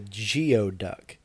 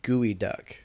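First: The first part sounds like 'gee-oh'. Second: The first part sounds like 'gooey'. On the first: The speaker calls it wrong. "sorry, I mispronounced it" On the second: The speaker calls it right. "Is what it's technically called"

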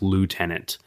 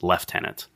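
First: It is said the American way, 'loo-tenant'. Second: It is said the British way, 'lef-tenant'.

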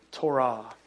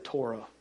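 First: It is said the Hebrew way. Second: It is said in a redneck American accent.

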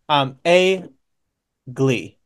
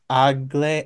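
First: The name begins with an 'ay' sound. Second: The name begins with an 'uh' sound. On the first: The speaker calls it right. "because the pronunciation shows like AY-LG" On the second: The speaker calls it wrong. "it looks like it should be pronounced ugly"

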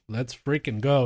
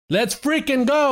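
First: It is said with ordinary, moderate energy. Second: It is said with louder, more hyped energy. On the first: The speaker calls it wrong. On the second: The speaker calls it right.

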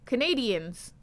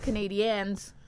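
First: It sounds like the English word Canadians. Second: It sounds different from the English word Canadians. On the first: The speaker calls it wrong. "When I first heard it, I thought it was wrong too. I was like, it's Canadiens" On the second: The speaker calls it right. "not Canadiens. But I guess Canadiens"

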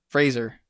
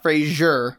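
First: The name is said without an 'ee' sound. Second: The name is said with an 'ee' sound. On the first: The speaker calls it right. "There's no I in there" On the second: The speaker calls it wrong. "And not Fraser"

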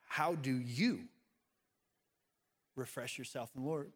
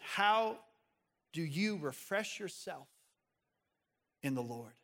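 First: The stress is on the word you. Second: The word you is not stressed.

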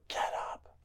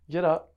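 First: It is screamed very loudly. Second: It is said a little louder than normal.

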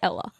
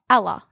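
First: The vowel follows the non-Melbourne pronunciation. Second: The vowel follows the Melbourne pronunciation. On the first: This is how people outside Melbourne say it. The speaker calls it right. "not me, because I say Ella" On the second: This is how Melburnians say it. The speaker calls it wrong. "You say Ella"

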